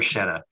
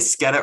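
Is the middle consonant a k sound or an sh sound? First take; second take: sh sound; k sound. First: The middle consonant is an sh sound. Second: The middle consonant is a k sound. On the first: The speaker calls it wrong. "I just like roll my eyes when they say bruschetta" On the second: The speaker calls it right. "the CH sound makes this K sound"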